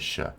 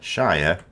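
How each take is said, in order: First: It is cut short to a reduced syllable. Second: It is said in full, rhyming with fire. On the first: This is the word inside a place name. "It's always shortened" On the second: This is the word on its own. "we pronounce the word Shire"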